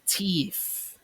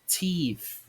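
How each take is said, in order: No difference in how they are said.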